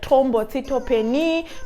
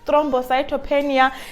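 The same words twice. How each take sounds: First: It is pronounced in another language's way. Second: It is pronounced the English way. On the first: "This side they'll say it's uh" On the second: "In English"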